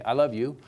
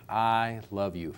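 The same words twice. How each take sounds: First: Warm and tender; loving. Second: Slow tender I love you. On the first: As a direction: say it like you mean it. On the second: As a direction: say it like you truly mean it. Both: Shown as a demonstration. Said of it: "those same three words will have a different impact".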